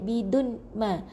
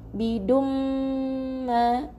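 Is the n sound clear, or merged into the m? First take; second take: clear n; merged m. First: A clear n sound is heard before ma. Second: The n merges into a nasal m sound. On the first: The speaker calls it wrong. "tak boleh bidun ma, nun ni tak dibunyikan tanwinnya" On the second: The speaker calls it right. "rapatkan bibir ... wajibal gunnah sebab mim yang bersabdu"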